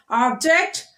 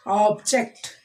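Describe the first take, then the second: First: "Object" as a noun, OB-ject; first-syllable stress. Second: "Object" as a verb, ob-JECT; second-syllable stress. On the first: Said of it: "stressing on the first syllable". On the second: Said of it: "we are stressing on the second". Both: Shown as a demonstration.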